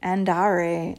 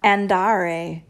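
First: Andare with a tapped Italian r; rolled r. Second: Andare with a flat American r; American accent on Italian. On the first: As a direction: tap the r in andare with the tongue tip. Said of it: "pretend it's a D". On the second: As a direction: say Andare with an American r, not rolled. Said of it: "the American accent on an Italian word". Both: Shown as a demonstration.

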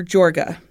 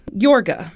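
First: Jorga said with an English J, "JOR-guh"; hard J pronunciation. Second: Jorga said with an initial Y sound, "YOR-guh"; Y pronunciation. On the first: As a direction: say Jorga with the J of "jump". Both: Shown as a demonstration. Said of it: "I don't know which way it's pronounced".

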